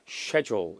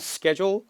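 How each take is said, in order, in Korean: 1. 영국식 발음입니다. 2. 미국식 발음입니다. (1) "영국 발음은 schedule" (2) "보통 미국 발음은 schedule"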